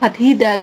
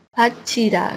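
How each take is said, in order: First: The middle consonant sounds like t plus h. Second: The middle consonant sounds like ch. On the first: The speaker calls it wrong. "nggak bisa kayak ngomong Fathida" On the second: The speaker calls it right. "ngomongnya Pachida gitu ya"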